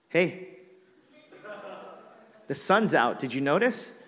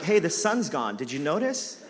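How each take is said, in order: First: Pointed complaint. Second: Wife teasingly echoing his complaint; teasing gotcha. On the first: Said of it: "I'm angry". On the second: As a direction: rub it in playfully. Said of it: "So mature". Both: Retold or imitated.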